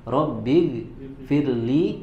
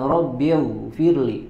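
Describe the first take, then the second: First: The gh sound is light and thin. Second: The gh sound is heavy and thick. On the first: The speaker calls it right. "maka di situ huruf ghainnya dibaca dengan tipis" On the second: The speaker calls it wrong.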